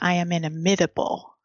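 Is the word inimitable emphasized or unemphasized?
emphasized. The word inimitable is hit with strong emphasis. "Leslie hit the"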